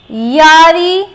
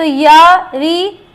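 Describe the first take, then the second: First: Said in the usual way. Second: यारी stretched out very slowly; slow demo word. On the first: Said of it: "तो यारी". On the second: Shown as a demonstration. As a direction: draw out यारी slowly so students hear each sound.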